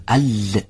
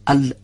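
First: ال said with hissing friction; fricative L. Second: ال clipped shut; stopped L. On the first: Teacher demonstrating a wrong fricative lām. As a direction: let air hiss through ال. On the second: Teacher demonstrating wrong closure on lām. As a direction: stop the airflow on ال. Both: Shown as a demonstration.

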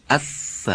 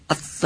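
First: اث with a long, continuous "th" hiss; sustained sound. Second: اث with the "th" cut in the middle; wrong, broken sound. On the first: Teacher correcting the broken take, sustained sound. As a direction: draw out the ث in اث without breaking it. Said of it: "این صدای مقداری ادامه دار باشه". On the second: Teacher showing students the mistake, sound wrongly broken. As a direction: break off the ث in اث before the vowel. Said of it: "این غلطه". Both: Shown as a demonstration.

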